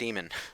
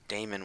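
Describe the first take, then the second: First: The first syllable sounds like 'dee'. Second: The first syllable sounds like 'day'. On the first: The speaker calls it right. "You're supposed to say it demon" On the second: The speaker calls it wrong. "Why does everyone pronounce it Damon with an A?"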